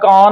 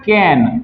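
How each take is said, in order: First: The vowel is a long open 'ah' sound. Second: The vowel is a short front 'a' sound. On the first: The speaker calls it wrong. "ना कान होगा" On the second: The speaker calls it right. "यहां पे पढ़ते हैं ए"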